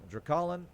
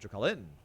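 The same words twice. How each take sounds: First: The stress is on the first syllable. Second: The stress is on the third syllable. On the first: "the first syllable" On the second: "or the third syllable?"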